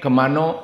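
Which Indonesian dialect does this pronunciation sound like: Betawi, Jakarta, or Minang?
Minang. It ends in an 'o' vowel, Minang-style.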